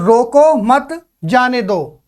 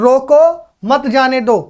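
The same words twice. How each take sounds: First: There is a pause after 'roko mat'. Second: There is a pause after 'roko'. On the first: Do not stop him, let him go. "यहां मैं हल्का सा रुका" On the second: Stop him, do not let him go. "इस विराम चिन्ह को यहां से बदल दूं"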